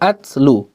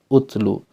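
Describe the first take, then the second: First: The word begins with an a vowel. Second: The word begins with a u vowel. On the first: The speaker calls it wrong. "bukan uh, atslu" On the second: The speaker calls it right. "tapi ut, utlu"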